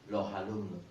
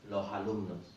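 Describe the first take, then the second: First: The S is dropped and an H sound links. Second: The same.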